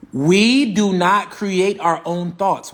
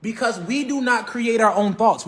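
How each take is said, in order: First: We do not create our own thoughts, every word slow and louder; slow emphatic repeat. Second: Said in the usual way. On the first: Shown as a demonstration. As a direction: hammer the line home slowly and firmly. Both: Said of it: "I'm gonna say it again".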